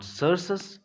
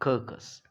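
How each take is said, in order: First: The first c is s, the second c is s. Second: The first c is k, the second c is k. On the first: "it is not सर्सस" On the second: "it is not कर्कस"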